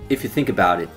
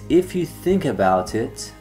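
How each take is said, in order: First: The words run together with reduced sounds. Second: Each word is said fully and separately.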